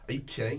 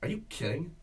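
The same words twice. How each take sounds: First: It sounds sincere and genuinely believed. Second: It sounds put-on and theatrical.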